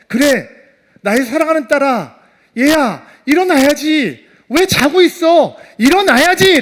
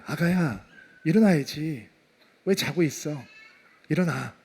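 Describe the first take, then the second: First: Loud, high, rising urgent call; father calling his daughter awake with full conviction; impassioned faith. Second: Soft, low, loving murmur; gentle parent at the child's ear; tender wake-up. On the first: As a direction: build to a raised-voice plea. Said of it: "라고 하는 믿음을 가졌을까요?". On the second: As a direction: coax a sleeping child awake in a hushed voice. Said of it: "죽어있는 아이에게 이렇게 말씀하시는 거예요". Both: Acted.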